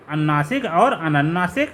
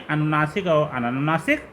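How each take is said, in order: Both takes have the same delivery.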